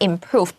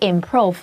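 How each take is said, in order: First: The vowel is a long oo, as in moon. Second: The vowel is not a long oo sound. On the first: The speaker calls it right. "这个 o 是长双 o, like the moon" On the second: The speaker calls it wrong. "不是 improve"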